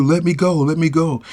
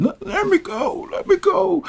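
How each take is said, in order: First: Said in the usual way. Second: Put-on much higher, whining like a little kid. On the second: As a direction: beg like a child, pitched way up. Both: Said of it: "she like a little kid".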